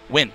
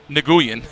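First: The starting N sound is silent. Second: The starting N sound is pronounced. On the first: The speaker calls it right. "The N is silent" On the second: The speaker calls it wrong. "That's not how you say it"

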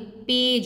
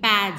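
First: The vowel is said long. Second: The vowel is said short. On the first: The speaker calls it right. "यहाँ पर magic ई का rule चला तो ये पेज हो गया" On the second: The speaker calls it wrong. "नहीं तो ये पैज होता"

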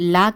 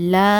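First: The vowel is cut short. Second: The vowel is stretched out long. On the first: The speaker calls it wrong. "லா கிடையாது" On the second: The speaker calls it right. "இரண்டு ஹரக்கத்தை நீட்டி லான்னு நீட்டி ஊதணும்"

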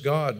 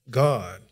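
First: The word is said plainly, without emphasis. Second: The word is said with strong, loud emphasis.

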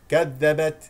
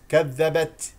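First: The final t has only light breathiness. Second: The final t has exaggerated, heavy breathiness. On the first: The speaker calls it right. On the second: The speaker calls it wrong.

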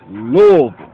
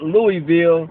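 First: The city name is said the local way. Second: The city name is said the outsider way. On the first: The speaker calls it right. "You gotta be down there to know about that" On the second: The speaker calls it wrong. "not Louisville"

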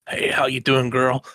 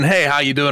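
First: It is said in a creepy, stalkerish way. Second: It is said in a normal, friendly way.

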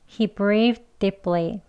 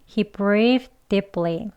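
The two takes are said the same way.

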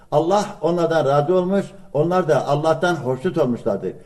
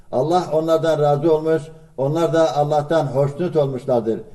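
The two takes are said the same way.

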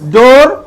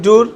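First: The vowel sounds like 'oh', as in 'dor'. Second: The vowel sounds like 'oo', as in 'dur'. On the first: The speaker calls it right. "উচ্চারণটা ডোর" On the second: The speaker calls it wrong. "আমি বলে ডুর বলে ফেলছি"

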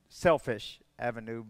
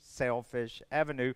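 First: The first word sounds like the adjective 'selfish'. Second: The first word sounds like 'sell' plus 'fish'. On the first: The speaker calls it wrong. "not Selfish Avenue" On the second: The speaker calls it right. "but like a fish"

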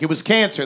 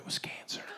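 First: It is spoken in a full, open voice. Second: It is spoken in a hushed whisper. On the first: The disease is named openly without hesitation. "My mother would never openly be like" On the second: The disease is named secretly, as if taboo. "It's always whispered"

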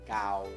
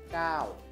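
First: The syllable is said on a level tone. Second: The syllable is said on a falling tone. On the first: "Dibacanya kau" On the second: "Jadinya dibacanya suaranya siang to"

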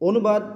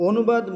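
The two takes are said the same way.

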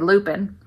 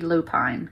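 First: The word ends with a short 'pin' sound. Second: The word ends with a long 'pine' sound. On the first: The speaker calls it wrong. "I keep wanting to say lupin, but I'm like, that would not have an E on it" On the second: The speaker calls it right. "if English was always pronounced the way it was spelled, it should be lupine"

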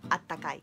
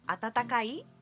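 First: One 'ta' is dropped, leaving three syllables. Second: All four syllables are pronounced, with a repeated 'ta'. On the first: It sounds more colloquial. "solemos pronunciarla como atakai" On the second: It sounds more formal. "atatakai es un poco más formal"

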